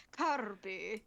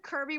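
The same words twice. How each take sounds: First: "Kirby" with a rolled, trilled R in a mock Spanish accent; "Kirby" rolled as "Kaarrbi", ending on a rise. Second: Said in the usual way. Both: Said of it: "bro said Kirby while rolling his R's".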